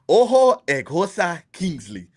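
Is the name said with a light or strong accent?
strong. The name is said with a stronger Nigerian accent.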